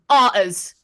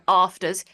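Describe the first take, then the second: First: The f sound in the middle is dropped. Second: The f sound in the middle is pronounced. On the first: "arters just forgets the F" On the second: "you know afters"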